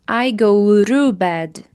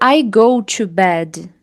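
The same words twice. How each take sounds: First: The word 'to' starts with a quick R-like tap. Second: The word 'to' starts with a clear T sound. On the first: "é muito comum ouvir ru" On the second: "Você também pode dizer I go to bed"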